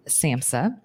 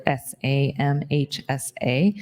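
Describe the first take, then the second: First: Samhsa said as one word, sam-sah. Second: S A M H S A spelled letter by letter. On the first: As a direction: read samhsa as a single spoken word. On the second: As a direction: spell S A M H S A out, each letter separate. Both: Shown as a demonstration.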